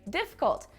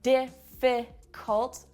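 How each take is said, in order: First: The second syllable is dropped. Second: All syllables are pronounced fully. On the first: The speaker calls it right. "I say difficult. What happened to that second syllable? It's not there" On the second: The speaker calls it wrong. "I don't say difficult"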